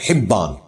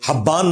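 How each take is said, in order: First: The first vowel is a short 'i' sound. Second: The first vowel is an open 'a' sound. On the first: The speaker calls it right. "हा के नीचे जेर है" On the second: The speaker calls it wrong. "हब्बान नहीं है"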